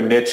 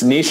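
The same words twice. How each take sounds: First: The word is said the American way. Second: The word is said the Canadian way.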